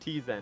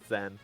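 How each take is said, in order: First: The word starts with a T before the Z. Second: The word starts with a plain Z sound. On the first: "T-Zen is way cooler" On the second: "it's probably pronounced Zen"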